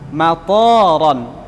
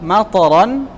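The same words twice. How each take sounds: First: The vowel after the t is long. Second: The vowel after the t is short. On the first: It means airport. The speaker calls it wrong. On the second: It means rain. The speaker calls it right.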